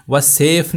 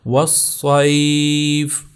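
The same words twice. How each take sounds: First: والصیف said quickly as "wa-sef"; والصیف in Urdu-style "-sef"; wrong flat vowel. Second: والصیف slow as "was-SAYF"; والصیف chanted with heavy s and long "ai"; correct ya glide. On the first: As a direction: say والصیف with a plain e, no glide. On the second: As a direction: hold a gliding "ay" in والصیف. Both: Shown as a demonstration. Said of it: "والصیف نہیں ہوگا".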